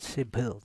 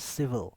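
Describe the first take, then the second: First: The middle sound does not use teeth on lip. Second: The middle sound uses upper teeth on lower lip. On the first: The speaker calls it wrong. "This is not civil" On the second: The speaker calls it right. "This is civil"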